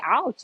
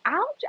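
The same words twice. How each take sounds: First: Ouch said a bit higher, less sharp; a milder, shorter yelp; lighter ouch. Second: Ouch yelped very high; a sharp high yelp of pain. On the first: Owner saying ouch to the dog, milder high yelp. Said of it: "like, say". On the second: Owner telling the dog it hurt, very high yelp. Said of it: "and I'm like". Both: Retold or imitated.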